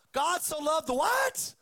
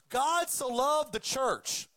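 First: "what" shouted high and loud as a question; shouted correction question. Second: Slow, pointed wrong version of "God so loved the church"; deliberate misquote. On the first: Preacher correcting the misquote, shouting the question at the crowd. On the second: Preacher demonstrating the misquoted verse to the congregation, slow and pointed. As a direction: lay out "church" as the wrong word, deliberately and slowly. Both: Shown as a demonstration. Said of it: "one of the most misquoted verses".

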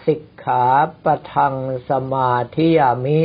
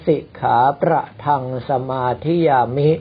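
First: ปะทัง said with a plain ป, no ร after it; no added R. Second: ประทัง with ร slipped in after ป; added R. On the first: Monk giving the exam example, ปะทัง without any R. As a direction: say สิกขาปะทัง with a clean pa, not pra. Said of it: "ก็คือปะทะบวกอังคะเป็นปะทัง". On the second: Monk showing candidates' failing mistake, extra R in ประทัง. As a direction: say สิกขาประทัง with pra in place of pa. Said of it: "เพิ่มรอเรือเข้าไป". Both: Shown as a demonstration.

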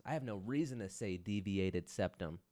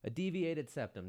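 First: Said in the usual way. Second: Lifted, marvelling at the words; incredulous echo. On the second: Real, not acted. Host echoing the doctor's diagnosis, lifted incredulous echo. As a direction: say it like the words are alien.

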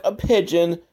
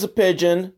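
First: A light sing-song picture-book reading of "a pigeon"; storybook read-aloud voice. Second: Said in the usual way. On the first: Retold or imitated. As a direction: read "a pigeon" like a kids' book page, a bit higher. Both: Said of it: "just like in his storybook".

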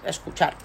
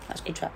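First: Said in the usual way. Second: Escuchar repeated much softer, almost faded; a hushed afterthought; soft echo. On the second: Real, not acted. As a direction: echo it quietly to yourself.

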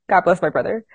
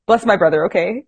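First: Said in the usual way. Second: Laughing. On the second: Real, not acted. Laughing at brother's ordeal.

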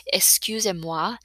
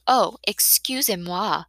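First: "Excusez-moi" slowly repeated as a rising question; questioning echo. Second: Drawn-out, called-out French apology; calling out. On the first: Acted. Narrator repeating the silly apology "Excusez-moi", as an incredulous question. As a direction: draw out "Excusez-moi" and lift it in disbelief. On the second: A narrator's reading. Girl calls from somewhere to the painters, drawn-out apology. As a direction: toss it out slowly as a careless apology. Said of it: "another voice calls out from somewhere".

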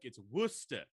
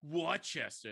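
First: Put-on British quote slipping into New York accent; "Worcester" as WUSS-tah, botched New York-ish accent; accidental New York accent. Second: Badly faked American accent, mocking; horrible fake American accent. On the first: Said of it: "New York accent". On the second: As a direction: imitate a Brit faking American, higher pitch. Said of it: "a horrible fake American accent".

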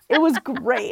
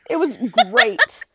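First: Said in the usual way. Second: Laughing. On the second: Real, not acted. Laughing memory of con.

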